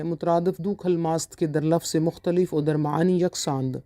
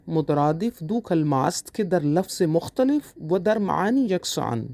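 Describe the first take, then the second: First: Said in the usual way. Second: Slower, word by word, for students to note; slow dictation. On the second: Shown as a demonstration. Teacher repeating the definition for students to write, slow dictation. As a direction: spell it out slowly for dictation. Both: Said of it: "teacher repeats Persian definition".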